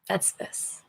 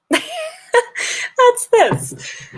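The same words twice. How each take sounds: First: Whispered. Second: High-pitched laughing squeak; squeaky high. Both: Shown as a demonstration.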